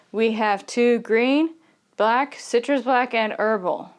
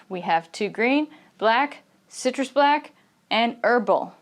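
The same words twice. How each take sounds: First: "green", "black", "citrus black" kept level, without jumps; steady intonation. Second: "green" and "black" go up, "herbal" comes down; rising list intonation. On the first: English teacher showing how not to list teas, steady intonation. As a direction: run evenly through "green, black, citrus black, and herbal". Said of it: "the intonation would not be steady". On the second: English teacher demonstrating list intonation to learners, going up on each item. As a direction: step up on each item until "herbal" falls. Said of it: "the intonation is going to kind of go up".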